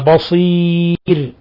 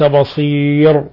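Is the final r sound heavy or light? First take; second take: light; heavy. First: The final r is light and thin. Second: The final r is heavy and full. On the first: The speaker calls it right. "وإنما بصير" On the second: The speaker calls it wrong. "ومن الخطأ تفخيم الراء حال الوقف عليها"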